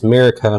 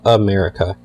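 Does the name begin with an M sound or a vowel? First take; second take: M sound; vowel. First: The name begins directly with an M sound. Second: The name begins with a vowel before the M. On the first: The speaker calls it right. "it's America, ... That there's no A at the beginning of his name" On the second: The speaker calls it wrong. "not America"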